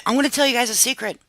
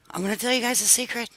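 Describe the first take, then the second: First: Said in the usual way. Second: Hushed secret. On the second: Shown as a demonstration. Telling her viewers a secret, hushed and soft. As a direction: lean in and say it like a secret.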